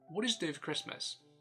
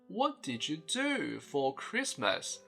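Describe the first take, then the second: First: The word 'for' is weakened to a short reduced form. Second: Every word, including 'for', is said in full. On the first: "native speakers tend to say it more like" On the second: "the way I was taught back in primary school"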